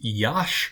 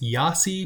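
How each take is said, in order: First: The name ends with a 'sh' sound. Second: The name ends with an 'ee' vowel sound. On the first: The speaker calls it right. "It is Yash" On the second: The speaker calls it wrong. "some people will pronounce this Yasi, but it is not Yasi"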